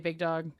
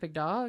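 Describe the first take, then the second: First: The pitch stays flat across the phrase. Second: The pitch moves markedly across the phrase. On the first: It does not count as the proper greeting. The speaker calls it wrong. "So if I just say big dog, not correct" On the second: It counts as the proper greeting. The speaker calls it right. "With the inflection"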